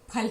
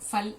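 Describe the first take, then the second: First: It begins with a breathy p sound. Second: It begins with an f sound. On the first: The speaker calls it right. "फल है" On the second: The speaker calls it wrong. "फल गलत उच्चारण है"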